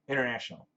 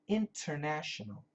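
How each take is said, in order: First: Some sounds are dropped in a relaxed form. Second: Every syllable is pronounced fully and carefully. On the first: This is how people say it in everyday speech. "natural spoken English" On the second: This is the textbook pronunciation. "the way to pronounce it"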